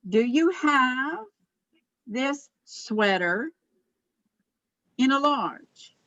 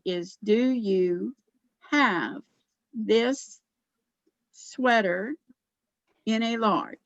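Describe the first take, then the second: First: The words 'do you' run together quickly. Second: The words 'do you' are said separately and clearly. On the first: "do you hear what I was doing in do you? Sometimes that all runs together" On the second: "if you enunciate it carefully"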